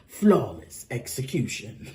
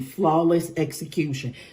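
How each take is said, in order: First: It is said in a deep, dramatic announcer voice. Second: It is said in an ordinary speaking voice.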